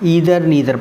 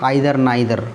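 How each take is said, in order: First: The first vowel sounds like 'ee'. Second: The first vowel sounds like 'eye'. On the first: "America में तो American pronunciation इसका ईदर नीदर पढ़ते हैं" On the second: "England में क्या पढ़ते हैं इसको"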